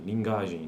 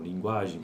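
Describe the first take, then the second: First: The g is plain, without lip rounding. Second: The g has lip rounding, like gw. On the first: The speaker calls it wrong. "não" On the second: The speaker calls it right. "consoante complexa"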